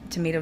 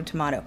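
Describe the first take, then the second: First: Tomato with a long "may" in the middle; American tomato. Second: Tomato with an open "mah" in the middle; British-style tomato. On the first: Shrugging off a mispronounced name, tomato said "tuh-MAY-toh". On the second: Shrugging off a mispronounced name, tomato said "tuh-MAH-toh". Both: Shown as a demonstration. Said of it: "I'm mispronouncing it".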